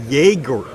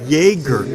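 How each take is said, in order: First: The name begins with a 'yeh' sound. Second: The name begins with a 'yeh' sound.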